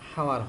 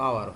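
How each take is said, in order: First: The word begins with an h sound. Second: The word begins with a vowel sound. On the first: The speaker calls it wrong. "H O ইউ হাওয়ার হয় না" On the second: The speaker calls it right. "উচ্চারণ তো আওয়ার হয়"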